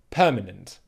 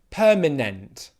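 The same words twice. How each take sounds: First: The last syllable is reduced to a weak 'unt'. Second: The last syllable has a full, clear vowel. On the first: The speaker calls it right. "It's permanent, unt, unt, unt" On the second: The speaker calls it wrong. "learnt English as a second language end up saying"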